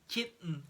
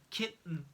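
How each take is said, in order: Both takes have the same delivery.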